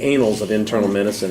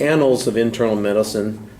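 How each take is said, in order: First: Annals begins with the vowel of day. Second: Annals begins with the vowel of cat. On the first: It sounds like something dirty and unpleasant. The speaker calls it wrong. "is something a lot dirtier and unpleasant" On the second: It names the medical journal. The speaker calls it right. "It's the annals of internal medicine"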